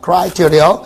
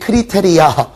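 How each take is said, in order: First: It is said with English-style pronunciation. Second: It is said with Korean syllable-by-syllable pronunciation. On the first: The speaker calls it right. "criteria라고 발음합니다" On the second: The speaker calls it wrong. "어디 가서 또 산티나게 크리테리아 이러지 마시고"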